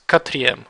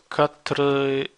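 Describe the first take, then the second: First: Quatrième run together as ka-tree-EM, no e after the r; correct pronunciation. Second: Quatrième split as "quatre" plus "ième", the middle e kept; mistaken pronunciation. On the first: Teacher shows the erased E, quatrième correctly joined as one word. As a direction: join quatrième smoothly, dropping the e of quatre. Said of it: "you will erase this E and it becomes". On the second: Teacher shows students the tempting mistake, quatrième wrongly split in two. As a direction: say quatrième slowly in two pieces, KA-truh ... YEM. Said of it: "you would be tempted to say".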